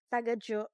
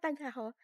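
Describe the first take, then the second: First: The last syllable begins with a j sound. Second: The last syllable begins with an h sound. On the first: The speaker calls it right. "Jo pala" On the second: The speaker calls it wrong. "Not tagaho"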